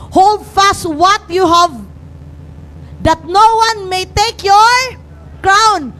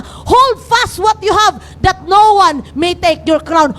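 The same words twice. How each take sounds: First: "Hold fast what you have" read slowly, each word weighed; solemn slow reading of scripture. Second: "Hold fast what you have" shouted out slowly, every word hammered; slow shouted charge to hold fast; shouted exhortation. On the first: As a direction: lay down the verse with deliberate slow weight. Reads the verse aloud. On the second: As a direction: call it out to the whole church. Repeats the verse in exhortation. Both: Acted.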